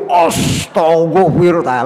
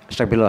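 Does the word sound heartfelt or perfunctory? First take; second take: heartfelt; perfunctory. First: It is said slowly and with deep feeling. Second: It is said quickly and without much feeling. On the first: The sigh is about an everyday worry. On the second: It is recited as a routine after prayer.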